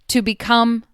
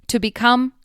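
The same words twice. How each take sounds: The two takes are said the same way.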